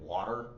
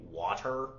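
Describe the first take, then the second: First: The middle t is a soft, lazy flap. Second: The middle t is said crisp and clear. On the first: This is how the speaker's own English says it. "whereas in English we say" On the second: This is how it is said in England. "watching a movie in England, you'll hear them say"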